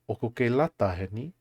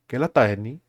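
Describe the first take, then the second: First: It is said slowly and carefully. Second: It is said quickly and casually.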